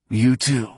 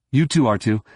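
First: Static-filled radio voice. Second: Said in the usual way. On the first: A narrator's reading. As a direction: voice over a crackly comlink. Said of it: "Hamner's voice was heavy with static".

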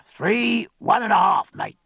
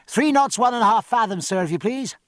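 First: Wheezy, raised quartermaster's voice; wheezing. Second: High, carrying report, easing on the courtesy; rather loud. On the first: Quartermaster gives the log reading to his mate, wheezing. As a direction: wheeze out the count like an old tobacco-chewer. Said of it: "and the quartermaster wheezed". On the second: Midshipman reports speed to Davidge for captain's ears, rather loud. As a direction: project it aft for the captain to overhear. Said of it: "directing his voice aft and speaking rather loud". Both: A narrator's reading.

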